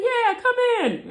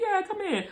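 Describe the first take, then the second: First: Much higher cheery invite; mock cheerful older boss; boss's voice. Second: Boss's voice. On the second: Retold or imitated. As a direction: repeat the boss lightly.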